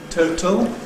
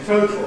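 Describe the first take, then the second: First: The second syllable has a weak schwa vowel. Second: The second syllable is a syllabic L. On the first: "Weakening gives you total" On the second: "Syllabic consonant formation gives you total"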